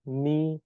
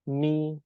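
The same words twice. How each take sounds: No difference in how they are said.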